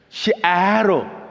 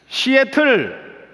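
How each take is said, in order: First: It is said American style with a flapped t. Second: It is said with a clear Korean t sound.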